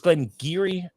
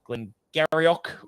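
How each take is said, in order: First: The name is said the short local way. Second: The name is said as it is spelled. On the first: The speaker calls it right. "it's Glengarry" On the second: The speaker calls it wrong. "not Glengarioch"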